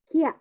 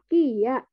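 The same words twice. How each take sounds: First: The i disappears and blends into ya. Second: The i and ya are said as separate sounds. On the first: "I-nya itu dilesapkan, kemudian eh, jadi masuk ke ya-nya. Jadi dibacanya Kia" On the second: "ini kan harusnya Kia"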